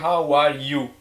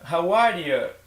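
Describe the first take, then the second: First: The last word has a full 'you' vowel. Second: The last word is reduced to 'ya'. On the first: "Eu não perguntei how are you" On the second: "Eu perguntei how are ya? ... Coloquei esse ya no final"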